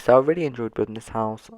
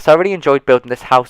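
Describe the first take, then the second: First: It is said in a flat, unenthusiastic way. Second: It is said in an enthusiastic, lively way.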